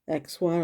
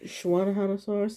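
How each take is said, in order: First: The name begins with a ks sound. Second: The name begins with an sh sound. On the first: The speaker calls it wrong. "instead of X one" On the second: The speaker calls it right. "you kind of pronounce it as a sh sound"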